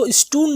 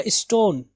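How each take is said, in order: First: "اسٹون" as is-toon, long oo; "اسٹون" rhyming with moon; wrong stone. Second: "اسٹون" as is-tone, with o; "اسٹون" rhyming with tone; correct stone. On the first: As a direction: say "اسٹون" with an oo vowel. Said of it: "اس کو اسٹون نہیں پڑھیں گے". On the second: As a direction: say "اسٹون" with a round o vowel. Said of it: "کیا ہے؟". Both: Shown as a demonstration.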